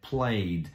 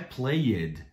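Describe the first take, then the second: First: The ending joins the word as one syllable. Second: The ending is said as a separate extra syllable. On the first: The speaker calls it right. "é played. Esse ed não existe" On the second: The speaker calls it wrong. "Não é played"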